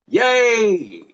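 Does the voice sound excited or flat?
excited. The words are said with bright, lively excitement. The speaker calls it right. "with excitement"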